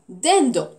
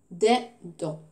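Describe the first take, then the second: First: Said in the usual way. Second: Dindon split as DIN, pause, DON; syllable by syllable. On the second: Shown as a demonstration. Teacher locating the "on" sound, Dindon split syllable by syllable. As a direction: say Dindon in two separate beats. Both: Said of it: "dans la deuxième syllabe".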